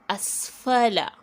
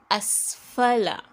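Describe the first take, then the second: No difference in how they are said.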